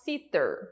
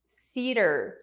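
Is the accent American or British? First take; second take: British; American. First: It is said in a British accent. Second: The T sounds like a quick R, American style.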